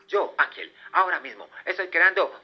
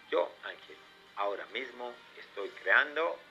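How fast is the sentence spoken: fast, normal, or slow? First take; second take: fast; normal. First: The sentence is spoken very quickly. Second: The sentence is spoken at normal speed. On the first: "uno muchísimo más rápido" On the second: "con tu voz normal"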